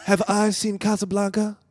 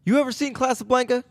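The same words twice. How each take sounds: First: Exasperated echo of the question; lightly voiced Seagal; playing Seagal. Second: High, eager question; lightly voiced Keenen; playing Keenen Ivory. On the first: Seagal echoing Keenen's question, mildly exasperated. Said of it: "I'll be Steven Seagal". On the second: Friend plays Keenen asking Seagal about Casablanca, eager. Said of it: "You be Keenen Ivory".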